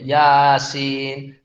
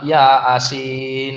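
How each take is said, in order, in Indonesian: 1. Vokal a dan i dipanjangkan. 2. Kata itu dibagi menjadi dua bagian, ya dan asin. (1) "ini kan maksudnya panjang bacaannya kan. A dan I-nya itu" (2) "Ini salah pula"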